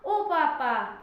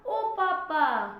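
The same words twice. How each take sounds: First: Short, louder mock cry of ओ पापा; slapped child's cry. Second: Long, loud drawn-out wail of ओ पापा; slapped child's cry. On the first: Kid slapped by mum calls for papa, quick mock cry. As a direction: snap it out like a quick yelp. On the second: Acted. Kid slapped by mum calls for papa, drawn-out mock wail. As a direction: stretch it out like a child crying for dad. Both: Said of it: "तो मुंह से निकला".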